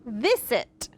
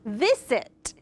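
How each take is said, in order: First: The middle consonant is a hissing S sound. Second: The middle consonant is a hissing S sound.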